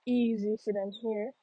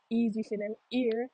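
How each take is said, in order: First: HEAR with its opening h pronounced; H sounded in hear. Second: HEAR without its h, said as "ear"; patois dropped H. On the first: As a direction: say HEAR with a breath of h at the start. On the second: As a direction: drop the h, Jamaican style: "ear". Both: Shown as a demonstration. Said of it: "me little accent".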